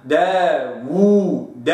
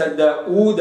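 First: داوود slow, a clear rounded waw and not a hamza; correct waw demo. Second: داوود with the waw turned toward a hamza; wrong reading. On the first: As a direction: draw out داوود with a full waw. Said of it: "هكذا". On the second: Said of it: "ليس". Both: Shown as a demonstration.

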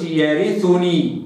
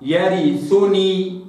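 First: يرثني with full kasra on ر and damma on ث; correct version. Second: يرثني with clipped vowels, very slow; wrong version. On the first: Teacher giving the corrected reading. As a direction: round the ث in يرثني fully. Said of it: "كسر الراء جيدًا". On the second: Teacher showing the error. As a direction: read يرثني with weak vowels. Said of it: "ما قلش". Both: Shown as a demonstration.

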